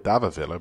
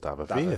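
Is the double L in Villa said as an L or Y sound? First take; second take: L; Y. First: The double L is said as an L sound. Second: The double L is said as a Y sound.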